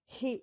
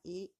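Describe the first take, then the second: First: It starts with a clear breathy h sound. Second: It starts with no breathy h sound. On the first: The speaker calls it right. "bien prononcé, faire sortir le souffle" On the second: The speaker calls it wrong. "pas I"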